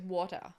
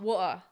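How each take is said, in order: First: It is said with a partly Canadian accent. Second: It is said with a Welsh accent, no T.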